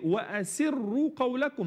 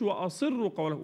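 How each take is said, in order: First: The S sound is light and thin. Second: The S sound is heavy and emphatic. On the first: The speaker calls it right. "السين مرققة" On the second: The speaker calls it wrong. "ما اقولش"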